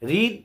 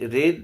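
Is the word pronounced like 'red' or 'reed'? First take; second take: reed; red. First: The vowel is long, like 'reed'. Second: The vowel is short, like 'red'. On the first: It is the present form of the verb. "রিডের past participle form হচ্ছে রেড।" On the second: It is the past participle form of the verb. "পাস্ট participle form হচ্ছে রেড"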